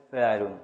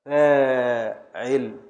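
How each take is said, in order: First: فاعل said short and quick as feʕelun, with no long vowel. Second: فاعل drawn out slowly, the first vowel held long. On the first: Teacher saying فاعل short, without the alif, for the class. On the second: Teacher drawing out فاعل with a long alif for the class. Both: Shown as a demonstration. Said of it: "يراه فاعل من غير ألف خالص".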